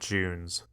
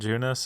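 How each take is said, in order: First: The name ends without an extra vowel syllable. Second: The name ends with an extra vowel syllable. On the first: This is the English form of the name. "They call it Junes" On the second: This is the Japanese form of the name. "in Japanese it is Junus"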